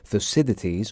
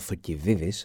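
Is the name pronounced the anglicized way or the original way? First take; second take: anglicized; original. First: The name has its usual anglicized pronunciation. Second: The name has its original native pronunciation.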